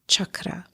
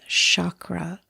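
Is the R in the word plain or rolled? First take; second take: rolled; plain. First: The R is rolled, with a hard ch. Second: The R is plain, not rolled. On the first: The speaker calls it right. "the proper pronunciation is chakra. So it's a hard C H and the R is rolled" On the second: The speaker calls it wrong. "Sometimes you'll hear the word said as"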